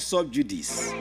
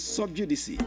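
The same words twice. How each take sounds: First: The word ends on a plain s sound. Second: The word ends with a 'see' sound. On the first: The speaker calls it wrong. "It's not sub judice" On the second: The speaker calls it right. "It's actually sub judice. That's the proper pronunciation of the word"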